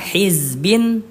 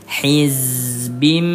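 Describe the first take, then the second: First: The word ends with an n sound. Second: The word ends with an m sound. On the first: The speaker calls it wrong. "yang awalnya dibaca hizbin" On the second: The speaker calls it right. "berubah menjadi hizbim"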